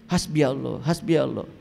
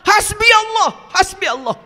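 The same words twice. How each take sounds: First: It is said flatly, with no energy. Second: It is said with trembling, heartfelt emotion. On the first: The words are only repeated from others. The speaker calls it wrong. "Gak ada air mata, gak ada getaran, gak ada energi" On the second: The speaker truly feels united with God. The speaker calls it right. "Menangis, bergetar"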